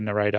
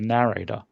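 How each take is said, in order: First: It is said with an Australian pronunciation. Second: It is said with an American pronunciation. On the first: "We would say narrator" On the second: "I think you guys would say narrator"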